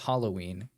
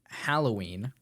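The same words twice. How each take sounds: First: The first syllable sounds like 'hollow'. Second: The first syllable sounds like 'hallow'. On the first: The speaker calls it wrong. "not Halloween" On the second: The speaker calls it right. "pronounced Halloween"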